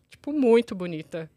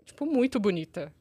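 First: Muito drawn out and slower; stress on muito. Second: Said in the usual way. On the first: Shown as a demonstration. Telling the friends about the pretty girl, stressing muito. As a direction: lean on muito, slow down. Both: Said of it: "Mais uma ênfase".

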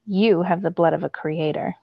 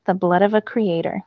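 First: Commanding. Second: Said in the usual way. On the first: A narrator's reading. The god Hurricane tells Zane his heritage, lightly commanding. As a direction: lay it down as a firm command. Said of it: "His voice was commanding". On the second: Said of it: "let the words sink in".

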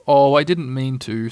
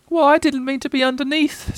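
First: Mild, understated regret; sorrowful. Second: High, small, plaintive voice; sad little Piglet. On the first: Pooh sorry for falling on Piglet, mildly sorrowful. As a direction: apologise with a touch of sorrow. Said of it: "said Pooh sorrowfully". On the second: Piglet answering Pooh's apology, sad and squeaky. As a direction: plead it sadly in a high voice. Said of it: "said Piglet sadly". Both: A narrator's reading.

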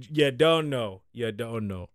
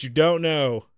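First: Lightly put-on Jamaican accent; a hint of jokey Jamaican patois. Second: Said in the usual way. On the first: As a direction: slip into a mock Jamaican accent. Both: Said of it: "you get a Jamaican accent".

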